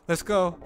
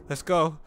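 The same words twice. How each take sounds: The two takes are said the same way.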